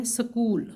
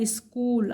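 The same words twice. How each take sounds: First: "سکول" with no i before it, sa-kool; common mispronunciation. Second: "اسکول" with i before the s, is-kool; correct pronunciation. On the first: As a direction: start "سکول" straight on s: sakool. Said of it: "غلط العام میں بولتے ہیں". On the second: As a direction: start "اسکول" on a vowel, slowly: iskool. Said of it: "اسکول الف ہے سکول سے پہلے". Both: Shown as a demonstration.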